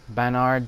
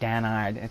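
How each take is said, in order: First: The name begins with a normal B sound. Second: Said without lips, the B sounds like D.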